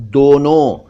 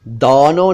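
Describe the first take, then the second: First: दोनों with rounded "o"; pure "oh" in दोनों; correct दोनों. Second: दोनों with open "au"; "aw" in first syllable of दोनों; mispronounced दोनों. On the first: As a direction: say दोनों as "donon". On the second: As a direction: say दोनों wrongly as "daunon". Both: Shown as a demonstration. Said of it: "दोनों नहीं".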